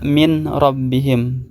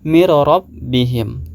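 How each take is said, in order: First: The n is pronounced clearly before the r. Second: The n merges into a doubled r, unnasalized. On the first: The speaker calls it wrong. "Tidak boleh dibaca min rabbihim" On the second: The speaker calls it right. "harus dibaca mir rabbihim. Nun sukunnya tidak terbaca"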